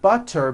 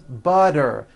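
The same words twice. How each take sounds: First: The middle consonant is a crisp T. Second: The middle consonant is a soft voiced D.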